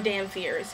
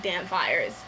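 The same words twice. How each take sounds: First: "fears" with an ee vowel; alternative pronunciation. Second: "fires" with a long eye vowel; alternative pronunciation. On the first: Vlogger offering the other way to say it, "fears" rhyming with ears. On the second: Vlogger offering one way to say it, "fires" rhyming with wires. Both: Shown as a demonstration. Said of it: "however you wanna pronounce it".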